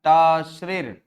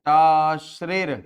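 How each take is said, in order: First: टाश्रेर सामान्य गति से ज़ोर देकर; सूत्र को दोबारा दोहराओ; formula repeated. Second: टाश्रेर धीरे, खींचकर, ज़ोर से; शब्द को धीरे-धीरे साफ़ बोलो; slow formula word. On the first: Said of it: "क्या है फॉर्मूला?". (दोहराते हुए टाश्रेर पर ज़ोर) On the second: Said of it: "formula बनेगा". (कठिन सूत्र टाश्रेर को धीरे और ज़ोर से बोलना) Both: Shown as a demonstration.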